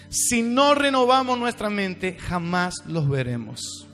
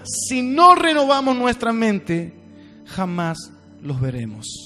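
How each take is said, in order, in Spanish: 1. La frase se dice a un ritmo normal. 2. La frase se dice despacio, como si estuviera dictando.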